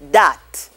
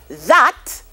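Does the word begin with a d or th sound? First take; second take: d; th. First: The word begins with a d sound. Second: The word begins with a th sound.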